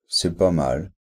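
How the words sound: The tone sounds dismissive and negative. It is not good at all. "c'est négatif"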